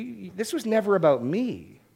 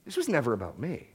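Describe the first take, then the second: First: Higher and firm, never stressed; emphatic rebuke. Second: Softer repeat, "never" lowered with a gentle rise at the end; quiet echo. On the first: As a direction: press the word "never" in "you, this was never about me" as God's rebuke. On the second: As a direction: let "This was never about me" sink to a softer, rising echo. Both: Retold or imitated. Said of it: "And what he's saying is".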